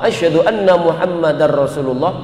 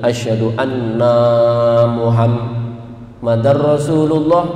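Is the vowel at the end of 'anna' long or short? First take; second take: short; long. First: The final vowel of anna is kept short. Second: The final vowel of anna is drawn out long. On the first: It says the Prophet Muhammad is God's messenger. The speaker calls it right. "dan aku bersaksi bahwa sesungguhnya Nabi Muhammad" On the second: It says the speakers themselves are Muhammad, God's messenger. The speaker calls it wrong. "annanya dipanjangin begini"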